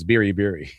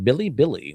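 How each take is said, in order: First: The middle consonant is a quick tapped R. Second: The middle consonant sounds like an English L. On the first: The speaker calls it right. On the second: The speaker calls it wrong.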